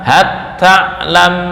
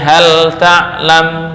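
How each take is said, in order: First: The l sound merges into the next consonant. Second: The l sound is pronounced clearly. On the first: The speaker calls it wrong. "nggak boleh dibaca" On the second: The speaker calls it right. "dibaca idhar"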